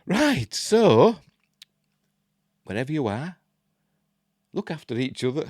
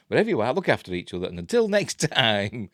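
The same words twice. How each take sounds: First: Said in the usual way. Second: Quick retake. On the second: Shown as a demonstration. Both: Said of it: "I'm useless".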